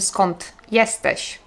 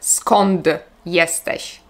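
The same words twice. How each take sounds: First: Skąd ends in a voiceless t sound. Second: Skąd ends in a voiced d sound. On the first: The speaker calls it right. "Tak jakby dy w słowie skąd było literką ty" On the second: The speaker calls it wrong. "nie powiem"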